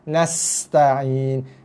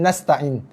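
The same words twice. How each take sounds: First: The s sound is longer and softer. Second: The s sound is short, tight and hard. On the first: The speaker calls it right. "Tapi nasta'in" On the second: The speaker calls it wrong. "Bukan nasta'in"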